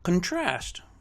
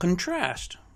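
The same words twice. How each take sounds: First: The stress is on the second syllable. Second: The stress is on the second syllable.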